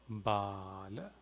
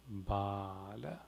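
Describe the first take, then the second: No difference in how they are said.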